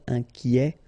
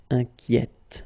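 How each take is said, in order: First: "inquiet" with an open è and a silent t; masculine pron. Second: "inquiète" with the final t clearly heard; feminine pron. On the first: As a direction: say "inquiet" without sounding the t. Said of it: "in that case it's already open". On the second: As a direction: let the t of "inquiète" sound clearly. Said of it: "So you only hear the T". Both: Shown as a demonstration.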